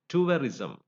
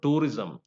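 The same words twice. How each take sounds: First: The first vowel glides from oo to uh. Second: The first vowel is one plain vowel. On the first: The speaker calls it right. "you have to use this diphthong here" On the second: The speaker calls it wrong. "It is not tourism"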